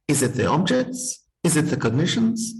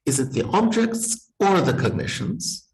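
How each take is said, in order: First: Two questions, each rising at the end; two short questions with a rise on "objects" and on "cognitions"; two separate questions. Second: One smooth question with a rise on or; one joined question. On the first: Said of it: "put it as two questions". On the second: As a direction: ask it as a single either-or question, rising on "or". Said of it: "I would have the option of saying". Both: Shown as a demonstration.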